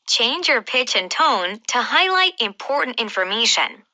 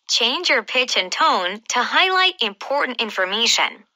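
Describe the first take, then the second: Both takes have the same delivery.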